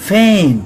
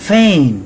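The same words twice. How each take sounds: The two takes are said the same way.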